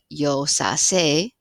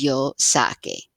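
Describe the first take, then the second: First: The consonant before the final vowel sounds like s. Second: The consonant before the final vowel sounds like k. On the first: The speaker calls it wrong. "which now doesn't have that hard K sound" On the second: The speaker calls it right. "I have to do something to maintain that K"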